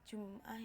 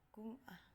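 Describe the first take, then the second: First: The word starts with a J sound. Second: The word starts with a hard G sound. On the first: This is the standard Arabic pronunciation. "mereka akan menggantinya dengan huruf G" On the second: This is how Egyptians say it. "itu menjadi Gum'ah"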